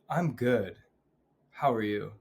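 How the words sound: It is said sincerely, with depth.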